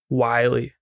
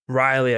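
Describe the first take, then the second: First: The name begins with a W sound. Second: The name begins with an R sound. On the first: The speaker calls it wrong. "I kept saying Wiley" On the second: The speaker calls it right. "Or like Riley"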